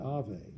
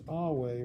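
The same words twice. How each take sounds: First: The middle consonant is a V sound. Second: The middle consonant is a W sound. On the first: This is the medieval Latin pronunciation. The speaker calls it wrong. "rather than Ave" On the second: This is the classical Latin pronunciation. The speaker calls it right. "in classical Latin was pronounced Ave"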